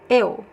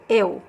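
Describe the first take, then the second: Both takes have the same delivery.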